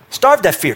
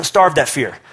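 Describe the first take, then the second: First: "Starve that fear" said higher with a punch on "Starve"; emphatic repeat. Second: Said in the usual way. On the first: Real, not acted. Preacher repeats the command to the congregation, stressing "Starve". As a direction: hit "Starve" hard the second time.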